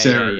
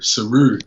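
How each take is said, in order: First: The stress is on the first syllable. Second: The stress is on the second syllable. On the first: The speaker calls it wrong. "A lot of people say Seru" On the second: The speaker calls it right. "The emphasis is on the Ru"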